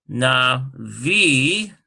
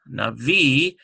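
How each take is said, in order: First: Navi sounded out, leaning on a long "vee"; stress on VI. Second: Navi said more joined up, weight on "vee"; stress on VI. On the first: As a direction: draw out na... VEE. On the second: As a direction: say na-VEE as one word. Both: Shown as a demonstration. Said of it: "it'd be on the V sound".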